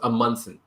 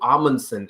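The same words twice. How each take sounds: First: The name is said in a plain, mellow English way. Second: The name is said in another common English way. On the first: This is how a group first said the name. "a very like plain, uh, mellow way" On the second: This is a common way people refer to the name. "another common way"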